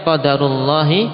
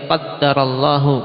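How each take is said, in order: First: The d is single and the phrase ends in -i. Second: The d is doubled and the phrase ends in -u. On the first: This is the decree of Allah. "Bisa juga kita mengucapkannya" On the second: Allah has decreed it. "Seorang bisa mengucapkan dengan bacaan seperti ini"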